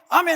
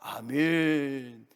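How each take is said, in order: First: It is shouted loudly and carelessly. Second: It is said in a stiff, formal manner. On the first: It is used carelessly, just to set the mood. "막 고성을 지면서 아멘" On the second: It is said only for appearances. "격식을 갖춰야 되니까. 그래서 아멘"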